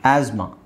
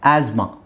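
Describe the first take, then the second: Both takes have the same delivery.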